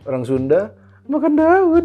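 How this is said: It is said in a mocking, insulting tone. It sounds like a put-down of the group. "kayak ada tendensi menghina nih"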